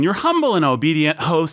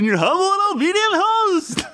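First: It is said in his own natural voice. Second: It is said in a put-on impression voice.

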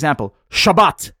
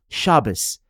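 First: The word ends in a sharp t sound. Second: The word ends in a soft s sound. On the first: It sounds like giving a command. "that sounds like you're commanding a dog to sit" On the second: It sounds warm and open-hearted. "It's like a mouthful of candy"

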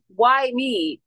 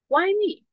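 First: It sounds self-pitying and complaining. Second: It sounds curious and genuinely questioning. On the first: The speaker feels like a victim of events. The speaker calls it wrong. "Why me is the victim" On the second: The speaker asks what the experience can teach. The speaker calls it right. "What might be happening in me"

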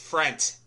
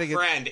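First: The word ends with a t sound. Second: The word ends with a d sound. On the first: The speaker calls it right. "it's frent. F-R-E-N-T" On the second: The speaker calls it wrong. "It's not friend"

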